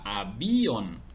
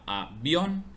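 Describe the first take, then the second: First: The stress falls on the i. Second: The stress falls on the o. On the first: The speaker calls it wrong. "Si estuviera sobre la I, diría avión" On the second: The speaker calls it right. "está sobre la O, por lo tanto se pronuncia en una sola sílaba"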